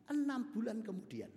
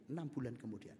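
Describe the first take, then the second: First: Enam bulan kemudian raised and stressed; emphatic. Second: Said in the usual way. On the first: Shown as a demonstration.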